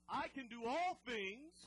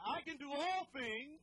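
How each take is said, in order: First: Declared catchphrase. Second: Slow, loud, emphatic declaration; louder, slow declaration with conviction; said like you mean it. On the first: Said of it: "we say this one all the time". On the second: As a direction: proclaim it with conviction. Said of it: "say it like you mean it". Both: Shown as a demonstration.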